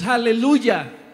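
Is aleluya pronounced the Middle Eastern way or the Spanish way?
Spanish. It is pronounced the ordinary Spanish way. This is how we say it here. "Nosotros lo decimos aleluya"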